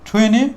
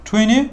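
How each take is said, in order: Both takes have the same delivery.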